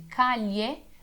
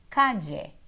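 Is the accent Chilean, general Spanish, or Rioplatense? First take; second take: general; Rioplatense. First: The ll sounds like Portuguese lh. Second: The ll is said in a Rioplatense accent.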